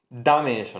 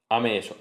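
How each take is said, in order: First: The opening d sound is fully pronounced. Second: The opening d sound is left out. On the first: The speaker calls it right. "Es una D plena" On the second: The speaker calls it wrong. "poca gente diría ame eso"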